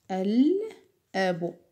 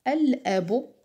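First: الأب drawn out slowly, the lam with sukun clearly heard. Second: Said in the usual way. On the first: Shown as a demonstration. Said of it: "حرف اللام يوجد فوقه ماذا". (نطق الأب ببطء مع إظهار اللام) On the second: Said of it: "على سبيل المثال ألف".

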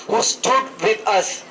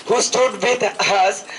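No difference in how they are said.

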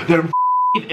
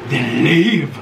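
First: Said in the usual way. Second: Low, curt and final; fed up. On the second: Real, not acted. Wife tells husband again to leave, low and curt. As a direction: shut it down like a repeated order. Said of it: "Then leave. Just leave".

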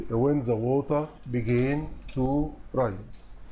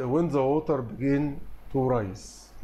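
First: Slow, careful second reading; slow repeat. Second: Slow, careful answer read; slow dictation. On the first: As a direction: repeat the answer slowly for the class. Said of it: "teacher repeats answer slowly". (تكرار بطيء للإجابة) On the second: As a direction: read the answer slowly for students. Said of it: "teacher reads answer slowly". (قراءة بطيئة للإجابة) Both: Shown as a demonstration.

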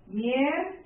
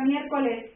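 First: "Miércoles" split as "miér... co-les"; syllable by syllable. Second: Said in the usual way. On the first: Shown as a demonstration. Teacher showing syllable division to students, syllable by syllable. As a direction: break "Miércoles" after a held "miér". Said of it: "la división silábica". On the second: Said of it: "La palabra miércoles".

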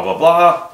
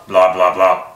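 First: High chattering head answering back; talking-head puppet. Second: Low chattering head answering back; talking-head puppet. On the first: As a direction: play the higher talking head. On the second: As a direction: play the lower talking head. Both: Shown as a demonstration. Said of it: "two talking heads going blah".

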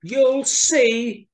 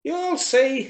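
First: High, loud, drawn-out mouse retort; emphatic little mouse. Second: High mouse voice, confident retort; little mouse. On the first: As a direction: insist louder, as a determined tiny mouse. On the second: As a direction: answer back as a tiny mouse. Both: A narrator's reading. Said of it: "she said".

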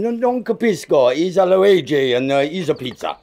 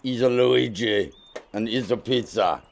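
First: Flustered hammed-up Italian accent, with a laugh; nervously cling to the Italian act; comic Italian accent, laughing it off; fake Italian accent. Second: Comic put-on Italian accent; fake Italian accent. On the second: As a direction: play the cheesy Italian pizza man. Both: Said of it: "They just forced me to do the accent".

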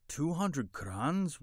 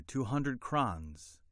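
First: High, drawn-out astonished question. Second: Said in the usual way. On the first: A narrator's reading. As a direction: repeat the price slowly in disbelief. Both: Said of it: "repeated Abdul Karim in astonishment".

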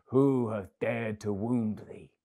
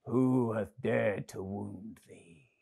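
First: Slow, weighty outcry of a grieving giant; crying out in anger. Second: Angry giant. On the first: Old giant to the wounded child, slow angry outcry. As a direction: drag out each word in outrage. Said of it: "cried the giant". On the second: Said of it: "his face grew red with anger". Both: Acted.

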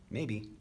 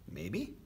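First: Said in the usual way. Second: MAYBE higher, rising at the end; questioning echo. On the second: A narrator's reading. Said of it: "asked Michael".

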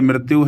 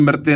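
First: "ਮ੍ਰਿਤਿਉ" with the closing u sound pronounced; final vowel sounded. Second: "ਮ੍ਰਿਤਿ" said without the final u sound; mispronounced "ਮ੍ਰਿਤਿ", final vowel u dropped; wrong ending. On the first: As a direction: end "ਮ੍ਰਿਤਿਉ" on a clear -iu. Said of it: "ਇਹਦੇ ਔਂਕੜ ਨੂੰ ਵੀ ਆਪਾਂ ਉਚਾਰਨ ਕਰਨਾ". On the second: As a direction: cut "ਮ੍ਰਿਤਿ" short after the ti. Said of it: "ਇਸ ਨੂੰ ਮ੍ਰਿਤਿ ਨਹੀਂ ਕਹਿਣਾ". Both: Shown as a demonstration.

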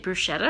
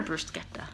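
First: Bruschetta said "broo-SHET-ta"; "bruschetta" with sh, no k sound; soft-SH bruschetta. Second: Bruschetta said "broo-SKET-ta"; "bruschetta" with sk in place of sh; hard-K bruschetta. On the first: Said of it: "I always thought it was bruschetta". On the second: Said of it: "don't they say bruschetta". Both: Shown as a demonstration.

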